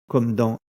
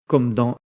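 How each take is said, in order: The two takes are said the same way.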